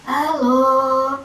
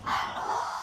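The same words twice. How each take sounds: First: The word is voiced with a rough, hoarse sound. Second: The word is whispered without voice. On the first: "suara serak" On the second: "ketika kita sedang berbisik"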